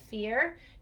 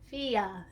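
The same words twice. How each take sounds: First: The R sound at the end is clear. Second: The R sound at the end is distorted. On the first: The speaker calls it right. "instead of fear" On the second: The speaker calls it wrong. "it might sound like fear"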